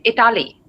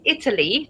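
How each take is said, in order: First: "Italy" with the middle vowel opened and stressed, i-TA-ly; common mispronunciation. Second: Said in the usual way. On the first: Shown as a demonstration. Teacher showing learners a common slip, "Italy" mispronounced as i-TA-ly. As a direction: say "Italy" as it-AH-lee. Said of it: "they say Italy". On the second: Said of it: "A lot of people don't say".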